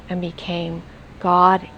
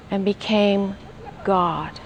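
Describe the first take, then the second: No difference in how they are said.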